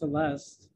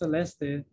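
First: The name is said with English pronunciation. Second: The name is said with Spanish pronunciation. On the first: "in English it's Celeste" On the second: "in Spanish it's Celeste"

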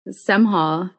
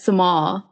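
First: The h sound in the middle is pronounced. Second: The h sound in the middle is dropped. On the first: This is how the owner says the name. The speaker calls it right. "there's an H in my name" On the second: This is how outsiders say the name. The speaker calls it wrong. "they'll be like Semhal"

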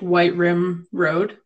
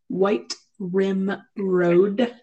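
First: The phrase is said quickly and casually. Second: Each word is articulated slowly and distinctly.

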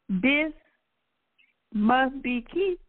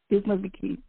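First: The name is said at a normal pace. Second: The name is said quickly, run together. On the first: "Say that name back to me" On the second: "Now say it fast"

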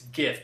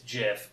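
First: The word begins with a hard g sound. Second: The word begins with a soft j-like sound. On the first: The speaker calls it right. "It's GIF because it stands for Graphic" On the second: The speaker calls it wrong. "Anyone listening out there that thinks it's GIF, I'm going to correct you"

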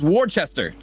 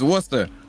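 First: The name is said the way it is spelled. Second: The name is said in a shortened form. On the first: The speaker calls it wrong. "When you look at it, it says Worcester" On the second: The speaker calls it right. "you say it's Worcester"

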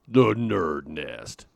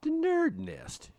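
First: It is said in a booming announcer voice. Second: It is said in a dark, sinister voice. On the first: "Kind of like the monster truck guy" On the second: "you can't really say that with, like, the sinister voice"

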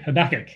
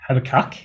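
First: It is said the American way. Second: It is said the Australian way.

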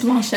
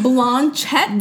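First: It is said with a French accent. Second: It is said with an English accent.

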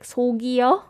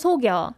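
First: An extra short syllable is inserted inside the word. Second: The word is said without an extra syllable. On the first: The speaker calls it wrong. "I found that he was like 속여. ... you added another phantom ghost syllable there" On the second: The speaker calls it right. "But it should just be 귀신을 속여"

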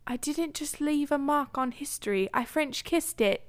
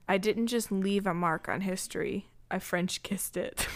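First: It is read in a British accent. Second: It is read in the speaker's normal accent.

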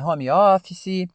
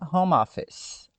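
First: It is said with a Brazilian Portuguese pronunciation. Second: It is said in English with the words linked. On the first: "é a maneira que nós brasileiros falamos" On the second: "Eu junto tudo fica home office"

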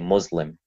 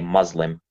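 First: The first vowel sounds like the vowel in put. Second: The first vowel does not sound like put. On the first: This is how people say it in North Africa. The speaker calls it right. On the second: This is the American or Western way to say it. The speaker calls it wrong. "That's a completely American, a Western way of saying it"

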